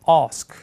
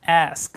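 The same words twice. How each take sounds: First: It is said in a British accent. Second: It is said in an American accent. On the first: "영국 호주는" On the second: "ask 아니고"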